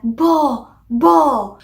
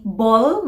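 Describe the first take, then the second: First: "bo" with the l left off; toddler's "bo", vowel left open; final consonant dropped. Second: Said in the usual way. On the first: Shown as a demonstration. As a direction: say "bo" twice like a small child. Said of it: "masasabi lang nila bo". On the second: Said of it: "instead of saying ball".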